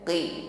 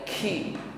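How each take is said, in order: First: The consonant is firm with no breath puff. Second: The consonant is followed by a puff of breath. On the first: The speaker calls it right. "kuatkan tekanan ... jangan diikuti dengan nafas yang berhembus" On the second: The speaker calls it wrong. "bukan ki"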